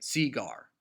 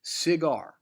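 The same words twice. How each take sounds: First: Cigar with the stress on the first syllable; CI-gar, emphasis moved to the front; wrong stress on CI. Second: Cigar with the stress on GAR; ci-GAR, second syllable higher and louder; natural Cigar, emphasis landing on gar. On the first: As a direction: Cigar deliberately mis-stressed on ci. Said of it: "that it's not supposed to sound". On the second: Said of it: "is on gar". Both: Shown as a demonstration.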